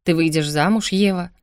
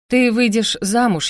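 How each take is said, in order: First: Curt repetition. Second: «Ты выйдешь замуж» slow, with weight on «Ты»; deliberate announcement. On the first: A narrator's reading. Brother repeating himself to shocked sister, curt «Ты выйдешь замуж». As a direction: restate «Ты выйдешь замуж» firmly, without drawing it out. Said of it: "резко ответил брат". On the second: Acted. Brother announcing marriage, «Ты выйдешь замуж» slow and deliberate.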